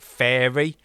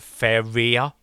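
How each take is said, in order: First: It sounds like the English word fairy. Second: It is said with three syllables, fe-ri-a. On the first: This is how some other people say it. "I've heard some people pronounce it Fairy" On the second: This is how the speaker says it. "I pronounce it Feria"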